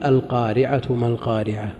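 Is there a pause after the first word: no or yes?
no. The words run on without a pause. The reciter joins the verse to the next one. "أو نقول"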